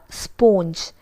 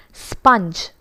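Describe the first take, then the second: First: SPONGE said "spohnj"; mispronounced "spoanj"; wrong pronunciation. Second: SPONGE said "spunj"; short "uh" in SPONGE; careful model "spunj"; correct pronunciation. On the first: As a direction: round the vowel of SPONGE to long o. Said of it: "not sponge". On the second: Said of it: "It's sponge". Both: Shown as a demonstration.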